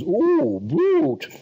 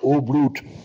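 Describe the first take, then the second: First: It uses drawn-out, theatrical old-fashioned stage diction. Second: It uses plain, neat, modern stage diction. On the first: It reflects an outdated acting style. The speaker calls it wrong. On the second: It reflects the current acting style. The speaker calls it right.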